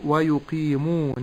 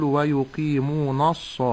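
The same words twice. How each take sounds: First: Slow "ويقيمون" with a thin n; correct light nun. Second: "ويقيمون الص" with a thick "nas"; wrong heavy nun. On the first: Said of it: "أحترز من تفخيم النون". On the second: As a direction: darken the nun before the sad in "ويقيمون الص". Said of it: "تفخيم النون". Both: Shown as a demonstration.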